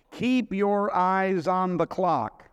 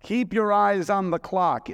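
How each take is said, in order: First: Drawn out, every word weighed; slow it right down and lean on keep; slow emphatic. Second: Higher and louder, ringing out; louder proclamation. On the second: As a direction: proclaim it to the congregation. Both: Shown as a demonstration.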